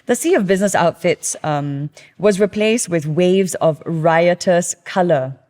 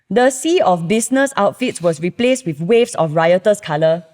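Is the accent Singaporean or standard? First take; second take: standard; Singaporean. First: It is read in a standard accent. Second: It is read in a Singaporean accent. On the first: "I'm going to read this as a voiceover artist" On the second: "if we say it with the accent"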